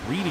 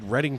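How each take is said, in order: First: The name is said the way it's spelled. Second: The name is not said the way it's spelled. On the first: The speaker calls it wrong. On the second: The speaker calls it right.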